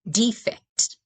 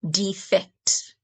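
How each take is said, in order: First: The stress is on the first syllable. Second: The stress is on the second syllable. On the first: It is a noun meaning a flaw or imperfection. "the first syllable is stressed" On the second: It is a verb meaning to desert a country or group. "When you stress the second syllable, it's defect"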